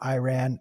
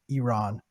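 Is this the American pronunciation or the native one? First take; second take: American; native. First: It uses the common American pronunciation. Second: It uses the native homeland pronunciation. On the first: The speaker calls it wrong. "Every American says it wrong" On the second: The speaker calls it right. "Iran is my homeland"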